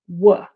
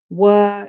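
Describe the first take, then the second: First: The word is said with a reduced schwa vowel. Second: The word is said with a full vowel.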